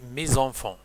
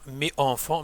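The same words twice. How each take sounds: First: The final s of mes links as z. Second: The final s of mes is silent. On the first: The speaker calls it right. "mais on dit; la liaison est obligatoire" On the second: The speaker calls it wrong. "On ne dit pas"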